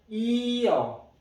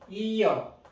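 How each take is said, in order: First: It is said slowly, both vowels distinct. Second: It is said fast, vowels run together.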